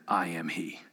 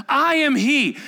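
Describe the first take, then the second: First: I am he, dropped much lower and softer, a deep hushed awe; hushed thunder. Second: I am he, pitched much higher and louder, ringing out; bold declaration. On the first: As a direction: let it rumble low like hidden power. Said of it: "Do you wonder if he thundered". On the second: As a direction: proclaim it so the crowd falls back. Jesus declares himself to the soldiers. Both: Acted.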